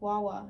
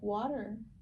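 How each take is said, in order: First: It is said as simplified baby talk, "wawa". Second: It is said as the full word, "water". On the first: A small child is still learning the word. The speaker calls it wrong. "she would be like" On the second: An adult models the proper word. The speaker calls it right. "I'm like"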